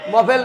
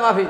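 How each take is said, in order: First: The first vowel is a short o sound. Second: The first vowel is a long a sound. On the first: The speaker calls it wrong. "মহফিল না" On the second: The speaker calls it right. "না মাহফিল"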